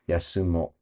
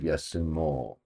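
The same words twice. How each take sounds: First: The final vowel is short and clipped. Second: The final vowel is held long. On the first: It is casual everyday speech. "it's cut off because this is common speech" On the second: It is the full standard form. "the mo would be long"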